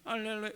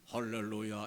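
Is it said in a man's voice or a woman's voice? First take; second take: woman's voice; man's voice. First: It is said in a high, female voice. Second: It is said in a deep, male voice.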